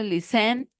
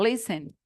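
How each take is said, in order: First: The stress is on the second syllable. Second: The stress is on the first syllable. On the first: The speaker calls it wrong. "No decimos listen" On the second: The speaker calls it right. "sino listen. Como no tiene acento en la última"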